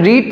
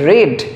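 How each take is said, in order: First: The vowel is long, like in 'reed'. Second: The vowel is short, like in 'red'. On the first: The word is in the present tense. The speaker calls it wrong. "রিড pronunciation করলেও ভুল হবে" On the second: The word is in the past tense. The speaker calls it right. "এর প্রোনাউন্সিয়েশনটা হবে ইট রেড"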